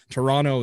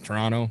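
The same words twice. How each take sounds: First: Each syllable is said fully and distinctly. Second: The syllables are run quickly together. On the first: It sounds like someone who is not a local. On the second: It sounds like a local saying it.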